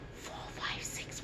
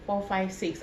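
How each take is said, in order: First: Soft unvoiced whisper right in the ear. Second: Said in the usual way. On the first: Shown as a demonstration. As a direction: whisper the numbers so only one ear hears. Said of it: "I'm going to whisper in your right ear". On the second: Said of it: "What did I say?".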